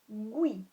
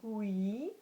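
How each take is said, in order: First: The u and i blend into one sound. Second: The u and i are said as separate sounds. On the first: The speaker calls it right. "it becomes" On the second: The speaker calls it wrong. "Rather than saying"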